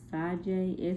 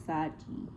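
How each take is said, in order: First: "Sajai" said with an "ay" sound at the end; mistaken pronunciation. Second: "Saji" said with an "ee" sound at the end; corrected "Saji", final vowel as "ee"; corrected pronunciation. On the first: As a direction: say "Sajai" ending like "jay". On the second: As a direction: say "Saji" ending like "jee". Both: Real, not acted. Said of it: "I was not pronouncing it right".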